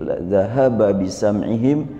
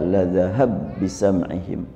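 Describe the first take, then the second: First: The final vowel of dhahaba is fully pronounced. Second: The final vowel drops and the b sounds merge.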